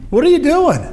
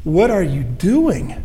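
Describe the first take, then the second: First: Sharp, high-pitched "What are you doing?" with the pitch leaping up on "you"; a friend staring you down, demanding "What are you doing?" in disbelief; confronting question. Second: "What are you doing?" drawn out slowly, with a falling end on "doing"; slow searching question. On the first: Retold or imitated. A friend confronting someone who is in a bad way, high and incredulous. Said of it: "looked you in the face and said". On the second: Shown as a demonstration. Preacher slowly turning the question back on the congregation. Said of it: "I have asked that question".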